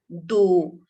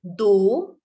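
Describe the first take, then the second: First: दो repeated alone, lower and louder; दो pronounced firmly as a standalone model; Hindi word model. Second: दो said once inside the sentence, plain; first take of दो, unemphasised; दो tucked into the line without weight; Hindi word model. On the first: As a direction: set दो apart, lower and louder, for pupils to copy. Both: Shown as a demonstration. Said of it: "in Hindi we say".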